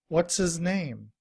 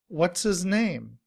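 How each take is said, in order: No difference in how they are said.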